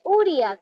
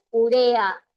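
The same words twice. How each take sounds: First: Uria stressed on the opening U; stress on first syllable. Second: Urea stressed u-RE-a. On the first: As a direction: say uria as Ú-ria, the mistaken form. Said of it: "No existe uria". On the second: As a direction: say Urea with the beat on the middle syllable. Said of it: "¿Qué dijimos en clase?". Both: Shown as a demonstration.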